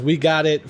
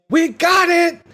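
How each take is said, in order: First: Said in the usual way. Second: Loud, high-pitched yell; imitated triumphant yell, pitched way up; Roman's yell. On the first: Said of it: "like when he yells". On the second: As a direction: belt it out like a movie-hero shout. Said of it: "Roman yells".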